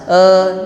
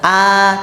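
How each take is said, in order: First: The mouth barely opens, giving a lazy eh. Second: An open a vowel, not too wide. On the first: The speaker calls it wrong. "Jangan cuma eh, nah ini eh orang malas" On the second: The speaker calls it right. "A membuka a, tapi jangan terlalu lebar"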